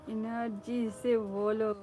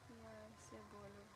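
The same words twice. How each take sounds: First: Loud, slow, forceful delivery; strong projected voice; energetic. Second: Very soft, barely voiced; hushed and gentle; low-energy delivery. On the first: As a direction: say it with big energy, drawn out. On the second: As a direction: say it quietly, holding the energy back. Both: Shown as a demonstration.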